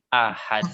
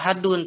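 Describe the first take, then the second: First: The word stops on a strong bouncing d. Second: The word ends with a full 'un' ending. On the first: The speaker calls it right. "tapi ahad" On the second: The speaker calls it wrong. "Tidak dibaca ahadun"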